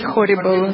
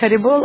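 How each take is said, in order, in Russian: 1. Первый гласный звучит как округлённое 'o'. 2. Первый гласный звучит как открытое 'a'. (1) "в Америке говорят хорибол, то есть ужасно" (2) "в Индии говорят харибол"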